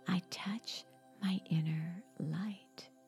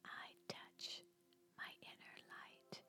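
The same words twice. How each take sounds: First: It is spoken in a normal voice. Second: It is spoken in a whisper. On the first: "repeat the affirmation in your natural speaking voice" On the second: "Now repeat the affirmation in a whisper"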